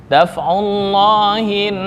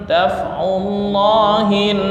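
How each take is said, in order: The two takes are said the same way.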